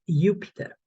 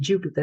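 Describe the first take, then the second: First: The word begins with a Y sound. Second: The word begins with a J sound. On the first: The speaker calls it right. "is Jupiter" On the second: The speaker calls it wrong. "is not going to be Jupiter"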